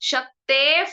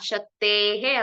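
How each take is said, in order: First: The final sound is an f. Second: The final sound is a breathy h. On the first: The speaker calls it right. "ಶಕ್ತೇಫ್ ಅಂತ ಬರ್ಬೇಕು ಆ sound" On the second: The speaker calls it wrong. "ಶಕ್ತೇಹೇ ಅಂತ ಇದೆ"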